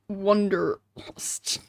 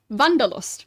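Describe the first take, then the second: First: The word is said with English pronunciation. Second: The word is said with German pronunciation. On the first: "the proper German pronunciation would not be that" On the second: "the proper German pronunciation"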